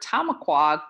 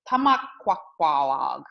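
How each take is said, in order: First: The word is said in a short form. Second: The word is said in a long form. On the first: This is how the word is said today. The speaker calls it wrong. "today means beavers in the plural. it's a little bit shorter than our ancestors once said it" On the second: This is how the ancestors once said it. The speaker calls it right. "in a more correct pronunciation"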